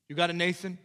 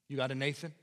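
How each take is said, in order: First: "got" pushed louder and higher; stress on got. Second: Said in the usual way. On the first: Shown as a demonstration. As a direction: lean hard on "got" the second time.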